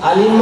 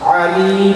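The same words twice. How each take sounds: First: The word starts with a plain glottal stop. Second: The word starts with a throaty ain sound. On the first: Someone who causes pain. "মানে যন্ত্রণা দায়ক কষ্টদাতা" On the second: Someone who is all-knowing. "আইন দিয়ে মহাজ্ঞানী"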